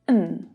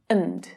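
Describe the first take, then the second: First: The word is reduced to only an n sound. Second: The word is reduced with a weak schwa vowel. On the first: "or n" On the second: "And becomes and"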